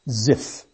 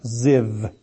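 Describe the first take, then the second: First: The word ends with an f sound. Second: The word ends with a v sound. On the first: "there it is said" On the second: "Or in Hebrew, it's pronounced Ziv. V, the V sound is dominant"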